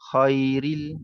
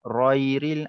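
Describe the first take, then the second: First: The word starts with a voiceless rasping sound. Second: The word starts with a voiced throat sound. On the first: The speaker calls it wrong. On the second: The speaker calls it right. "Ghairil baca lembut"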